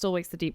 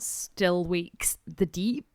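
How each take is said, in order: First: The title is said in a plain accent. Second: The title is said in a Scottish accent. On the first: "I won't keep it up for the whole thing" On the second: "You gotta say it in a Scottish accent because it's very Scottish"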